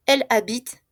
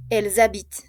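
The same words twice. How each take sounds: First: Elle habite with l linked to the vowel, no z sound; no liaison, silent e. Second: Elles habitent linked with a z sound, ent silent; z liaison. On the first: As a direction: end habite on t, straight after Elle. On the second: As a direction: buzz a z from Elles into habitent, ending on t. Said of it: "Lo mismo". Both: Shown as a demonstration.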